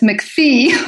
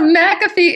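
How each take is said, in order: First: The name is said as McPhee. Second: The name is said as McAfee. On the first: The speaker calls it wrong. "she kept calling us McPhee" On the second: The speaker calls it right. "So McAfee is our name"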